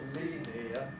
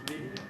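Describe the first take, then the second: First: The word is said with three syllables. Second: The word is said with two syllables. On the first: "three syllables" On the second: "becomes two syllables"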